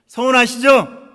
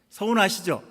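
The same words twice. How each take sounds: First: Much louder, higher call to the congregation; emphatic loud question. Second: Said in the usual way. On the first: Real, not acted. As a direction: press them hard for an answer. Asks again for a response. (크고 높게 다그쳐 묻는 말투)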